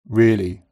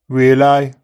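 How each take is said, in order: First: The final ee is a steady pure vowel. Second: The final ee glides from the centre of the mouth. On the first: "followed by GB" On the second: "Red text, read in Brummie, followed by GB"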